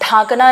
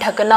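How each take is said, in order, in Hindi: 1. पहला स्वर लंबा और अनुनासिक है। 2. पहला स्वर छोटा और सादा है। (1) "ढांकना नहीं होता है" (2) "ढकना होता है"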